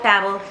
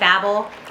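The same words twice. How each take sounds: First: The word rhymes with 'fable'. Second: The word does not rhyme with 'fable'. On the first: "the narrator is British. He says it Babel, Fable" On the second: "I know a lot of people say Babel"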